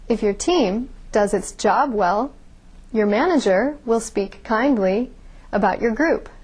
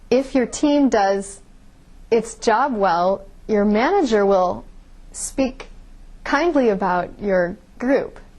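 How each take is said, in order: First: Five pauses fall between the word groups. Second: Pauses break up the middle of word groups. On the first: "I had five pauses in that sentence" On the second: "I put pauses in all the wrong places"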